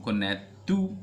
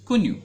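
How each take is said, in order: First: "Connaître" mispronounced as ko-net-TU; wrong form. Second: "connu" said as two short syllables, ko-NU; correct form. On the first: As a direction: end "Connaître" on a mistaken "too" sound. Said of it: "that will be no, wrong". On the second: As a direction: model "connu" with a final French U. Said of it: "you have to do it like". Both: Shown as a demonstration.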